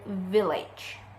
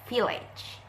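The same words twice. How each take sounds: First: The word starts with a V sound. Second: The word starts with an F sound. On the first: The speaker calls it right. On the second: The speaker calls it wrong.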